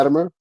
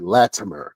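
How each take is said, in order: First: The middle consonant sounds almost like a D. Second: The middle consonant is a crisp, clear T. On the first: "It sound, almost sounds like a D" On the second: "sometimes I have to pronounce it, pronunciate it"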